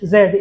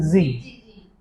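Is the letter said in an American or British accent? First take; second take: British; American. First: The letter is said in a British accent. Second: The letter is said in an American accent. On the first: "in British" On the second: "in American"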